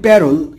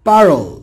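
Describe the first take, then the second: First: The first vowel is like 'a' in 'cat'. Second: The first vowel is like 'a' in 'father'. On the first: This is how people commonly say it. The speaker calls it wrong. "আমরা বলি" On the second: This is the proper pronunciation. The speaker calls it right. "কিন্তু উচ্চারণ হবে"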